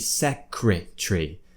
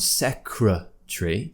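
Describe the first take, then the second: First: The third syllable has a full 'cree' vowel. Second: The third syllable has a weak schwa vowel. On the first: "they're saying it should be secretary" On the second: "instead of being a schwa sound"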